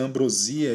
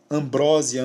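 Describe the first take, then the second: First: "ambrosia" stressed on the i; double prosody variant. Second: "Ambrósia" stressed on BRÓ; double prosody variant. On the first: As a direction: say "ambrosia" as am-bro-SÍ-a. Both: Shown as a demonstration. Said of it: "palavras com dupla prosódia".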